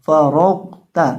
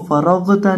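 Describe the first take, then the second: First: फरौता with the ghain held still before ता; loud, careful फरौता, no echo after the ghain; unbounced ghain. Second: फरौता with an extra echo on the ghain before ता; faulty फरौता, ghain shaken loose from ता; wrongly bounced ghain. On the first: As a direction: stop cleanly on the ghain, then say ता in फरौता. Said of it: "गौन को हिलाना नहीं है". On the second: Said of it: "इसको फरौता नहीं पढ़ना". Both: Shown as a demonstration.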